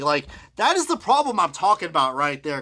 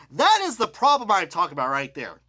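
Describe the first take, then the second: First: "is" leaned on, the rest flat; stress on is. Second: "That" punched at the start, falling after; stress on that. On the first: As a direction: press the word "is". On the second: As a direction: hit "That" hard, let the line fall. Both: Shown as a demonstration.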